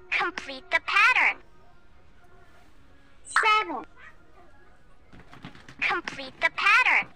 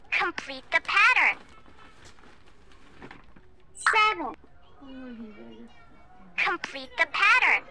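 No difference in how they are said.

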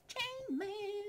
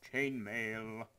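First: Very high, drawn-out silly squeal. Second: Said in the usual way. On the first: Pretend. Gamer thrilled with new armour, absurd high squeal. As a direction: squeak it out in tiny-voiced glee.

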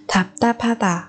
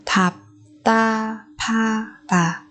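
First: Said in the usual way. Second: Very slow, drawn-out "Thạp ta pha tà"; syllable by syllable. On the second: Shown as a demonstration. Teacher modelling a word for learners, very slowly.

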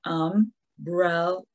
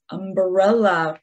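First: "Umbrella" slowly, as um, brel, la; three separate beats on "Umbrella"; clapped-out syllables. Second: Said in the usual way. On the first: Shown as a demonstration. Teacher clapping with children, "Umbrella" split syllable by syllable. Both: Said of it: "we're gonna clap out the syllables".

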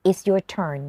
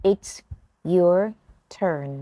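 First: Said in the usual way. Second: "It's", "your", "turn" with pauses, "turn" falling; slow teaching chunks; word by word. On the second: Shown as a demonstration. (พูดแยกทีละคำ "turn" เสียงลง) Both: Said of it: "ฝึกฟังแล้วออกเสียงตาม[name]นะคะ".

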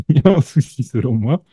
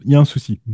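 First: Quick repeat through a laugh. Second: Said in the usual way. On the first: Real, not acted. Host teasing listeners again, laughing. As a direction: rush it out laughing at your own joke.

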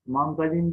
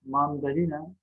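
First: "Mandalin" without the final a; clipped ending on "Mandalin"; shortened form. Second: Said in the usual way. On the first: Shown as a demonstration. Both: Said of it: "Mandalin değil".

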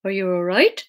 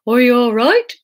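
First: Character question with the voice cracking upward; broken voice. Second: Said in the usual way. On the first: A narrator's reading. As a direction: let the voice break on the question. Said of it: "His voice is really broken".

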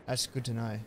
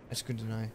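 Both takes have the same delivery.

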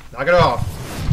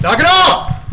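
First: Slow, drawn-out annoyed warning; annoyed grumble. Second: Loud, high-pitched angry shout; exasperated yell. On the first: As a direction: stretch it out, fed up but contained. Grumbling at game pursuer. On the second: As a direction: blast it out at the pursuer, pitch jumping. Yelling at game pursuer. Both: Real, not acted.

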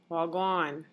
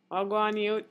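First: A casual Jamaican Wagwan, tossed off; Jamaican patois greeting. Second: Jamaican patois Wagwan, youth, higher and louder, calling out to a friend; lively Jamaican patois greeting. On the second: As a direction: hail a mate in Jamaican patois, Wagwan punched up. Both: Shown as a demonstration. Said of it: "but in Jamaican dialect".

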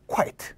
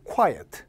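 First: "quite" as one beat, KWAIT; one-syllable quite. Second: "quiet" as KWAI-uht, falling on the second beat; two-syllable quiet. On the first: Teacher showing the look-alike word, "quite" in one syllable. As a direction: close straight onto the t in "quite". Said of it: "순서만 좀 교묘하게 바뀌어있죠". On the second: Teacher correcting a mix-up, "quiet" in two syllables. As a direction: separate a second vowel before the t in "quiet". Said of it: "형태 착각해서 억울하게 들리는". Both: Shown as a demonstration.

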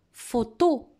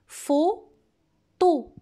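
First: Said in the usual way. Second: "Photo" split in two, pho… to, higher pitch, pause between; syllable by syllable. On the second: Shown as a demonstration. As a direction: dictate "Photo" as two separate drawn-out syllables. (« Photo » dicté syllabe par syllabe) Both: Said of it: "Ce mot se compose de deux syllabes".

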